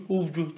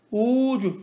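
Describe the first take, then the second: First: "Uvcuh" with an added v; the mistaken "Uvcuh", v before c; wrong form. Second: "Ucuh" said with no v sound; correct form. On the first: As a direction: insert v: "Uvcuh". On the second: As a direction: say "Ucuh", u straight into c. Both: Shown as a demonstration. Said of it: "Uvcuh değil".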